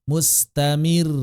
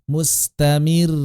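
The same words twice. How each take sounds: Both takes have the same delivery.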